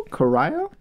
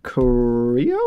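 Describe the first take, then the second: First: "Corio" as a second guess, ko-RYE-oh; unsure pronunciation. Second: "Corio" as a questioning first guess, ending ko-REE-oh; unsure pronunciation. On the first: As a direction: try "Corio" with an eye sound in the middle, rising. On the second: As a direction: try "Corio" as ko-REE-oh, rising at the end. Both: Real, not acted. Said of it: "I'm not, I'm, I don't know. I hope that's right".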